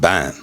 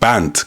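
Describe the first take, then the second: First: The final d sound is dropped. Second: The final d sound is pronounced.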